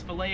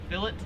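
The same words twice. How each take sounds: First: The word is said with an American pronunciation. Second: The word is said with an Australian pronunciation. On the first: "or it's fillet if you're American" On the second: "Here in Australia, they pronounce it as fillet"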